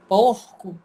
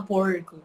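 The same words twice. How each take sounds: First: "porco" with a breathed, back-of-throat R; local guttural R. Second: "porco" with a retroflex caipira R. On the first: Teacher showing how Acre speaks, guttural R. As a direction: say "porco" like "pôhco". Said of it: "a gente fala". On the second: Teacher showing what Acre doesn't say, caipira R. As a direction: curl the R in "porco". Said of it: "a gente não fala porco". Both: Shown as a demonstration.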